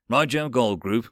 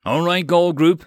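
First: Pilot radio reply over a throat mic. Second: Over a throat mic radio; clipped pilot radio call. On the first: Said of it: "keyed his mic again". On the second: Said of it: "he triggered his throat mic". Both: A narrator's reading.

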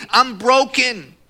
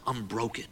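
First: Loud, high, drawn-out lament; anguished cry. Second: Soft, low admission of defeat. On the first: Young man despairing over his injury, loud anguish. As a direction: cry it out slowly at full voice. Acts out despairing thought, loudly. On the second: Man thinking to himself he is broken, quietly defeated. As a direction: drop right down, as if thinking it privately. Same thought, now said subdued. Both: Retold or imitated.

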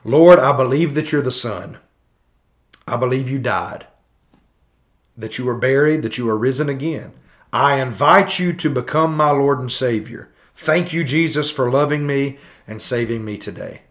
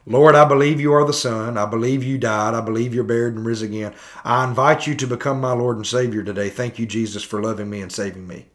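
First: Measured prayer recital with pauses; leading a prayer. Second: Hurried, formulaic prayer, sinking at the end; rote prayer recital. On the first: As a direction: recite it phrase by phrase, pausing between. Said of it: "you pray this prayer". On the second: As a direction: rattle off the prayer without pausing. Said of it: "Pray this prayer of repentance with me". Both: Acted.

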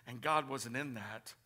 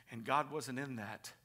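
No difference in how they are said.

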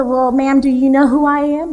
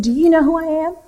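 First: Higher, louder mock-innocent retort; cheeky comeback. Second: High, louder affronted challenge; indignant old lady. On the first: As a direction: toss her question right back at her. Usher turns question back. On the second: Retold or imitated. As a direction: play the offended pastor's mother. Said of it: "She got really mad at him".

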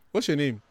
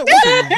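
First: Said in the usual way. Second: Very high, very loud demand; mock shriek. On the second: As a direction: shriek the question in comic exasperation. Demanding officer's name, acted out.

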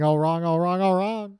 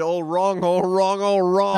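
First: Quick-fire version of a quoted line; demonstrating the line at a brisker pace; faster delivery. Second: Drawn-out, louder mock movie line; imitated line, paced too slowly; slow quote delivery. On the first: Shown as a demonstration. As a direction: run the phrases together quickly. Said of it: "if he said it a bit faster". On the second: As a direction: draw each phrase out, pitched up. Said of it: "Just a little bit too slow".

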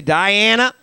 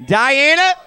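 First: Higher, lifted call with a rise; name called out, pitched up at the end. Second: Name thrown out high and loud, rising sharply; high, loud, sassy summons; with attitude. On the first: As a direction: call the name across to a neighbor. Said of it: "call out somebody's name, right?". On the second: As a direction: say it as if about to yell at them. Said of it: "Say their name with an attitude". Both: Shown as a demonstration.

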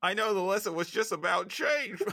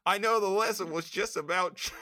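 First: Put-on high Aussie accent, held through the line; Australian [name] again. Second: Put-on high Australian accent, slightly laughing; Aussie whine, keep it cartoonish; Australian [name]. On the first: Urged to keep going, high Australian [name] voice. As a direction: keep the Australian whine steady. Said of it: "Keep going". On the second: Cohost says keep going, high Australian accent. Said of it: "say it in an Australian accent".

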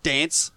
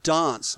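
First: Dance as "dance" with a short front A; dance with a flat American "aa" vowel; mock American pronunciation. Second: Dance as "dahnce", long open A; dance with a broad "ah"; Australian broad-A pronunciation. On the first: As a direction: say dance with the A of "cat". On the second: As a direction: say dance with the A of "father". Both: Shown as a demonstration. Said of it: "not dance".

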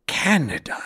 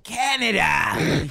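First: A mild teasing read of "Canada"; reading a character teasing humans' names; light teasing. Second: Friend hams up the character's teasing of "Canada"; mocking tease. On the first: A narrator's reading. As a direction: say "Canada" with a hint of a tease. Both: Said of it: "he teased".

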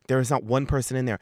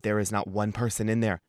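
First: "not" punched in a faster repeat; stress on not. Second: Said in the usual way. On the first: Shown as a demonstration. Repeating to the audience about the empty shop, stressing not. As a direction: hit "not" hard as you repeat it.

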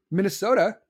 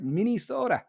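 First: Said in the usual way. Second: "Minnesota" said as MINNIE-soda, with a clear ee; exaggerated regional pronunciation. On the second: Shown as a demonstration. Host mocking own slip, "Minnesota" as MINNIE-soda. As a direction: play up "Minnesota" with an ee in the second syllable. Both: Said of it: "did I really just do that".

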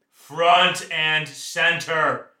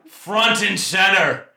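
First: Drawn-out loud command; drill sergeant. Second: Loud, slow, higher barked order; drill sergeant. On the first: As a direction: stretch out the order slowly. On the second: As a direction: call the troops to attention. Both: Pretend. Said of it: "like a drill sergeant".

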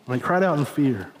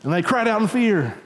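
First: Said in the usual way. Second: Higher, dramatic preaching delivery; raised emphatic. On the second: Shown as a demonstration. Preacher tells congregation of the frightened disciples, raised emphatic. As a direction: lift the pitch to stress the fear.

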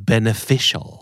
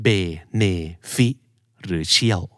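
First: Beneficial with the "fish" syllable punched; beneficial, weak start and strong FISH; stress on FISH. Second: Beneficial split into be, ne, fi, cial with pauses; slow quiz-style beneficial, evenly split; syllable by syllable. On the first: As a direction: hit the third syllable, ben-e-FISH-al. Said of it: "เน้น fish". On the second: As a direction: offer each syllable of beneficial separately. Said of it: "เน้นพยางค์ไหนดีครับ". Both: Shown as a demonstration.

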